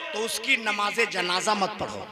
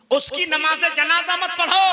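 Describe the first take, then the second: First: Said in the usual way. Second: Raised, louder preaching cry; high, emphatic pulpit delivery; forceful repeat. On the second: Real, not acted. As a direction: hammer the ruling home to the crowd.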